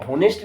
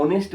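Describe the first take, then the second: First: होनेस्ट said with a sounded h at the start; wrong pronunciation. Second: ऑनेस्ट with a silent h, starting on the vowel o; correct pronunciation. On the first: Teacher showing pupils the wrong way, होनेस्ट with h. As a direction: say होनेस्ट with the h pronounced, ho-nest. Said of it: "इसको होनेस्ट नहीं पढ़ा जाता". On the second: Teacher showing pupils the right way, ऑनेस्ट without h. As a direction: say ऑनेस्ट as on-est, dropping the h. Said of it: "इसको ऑनेस्ट पढ़ा जाता है". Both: Shown as a demonstration.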